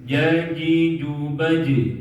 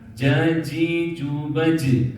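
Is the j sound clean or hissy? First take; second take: clean; hissy. First: The j sound has no hiss. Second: The j sound has a hiss. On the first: The speaker calls it right. "nggak ada desis" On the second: The speaker calls it wrong.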